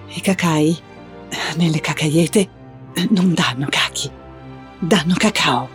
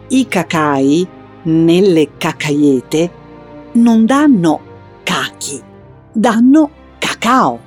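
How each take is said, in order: First: It is said in a nervous, anxious tone. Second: It is said in a clear, explaining tone.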